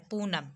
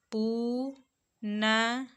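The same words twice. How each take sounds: First: Said in the usual way. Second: पूनम very slow, "pooo - naaa - ma"; syllable by syllable. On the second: Shown as a demonstration. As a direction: break पूनम into long, separate syllables. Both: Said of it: "short और long sound based".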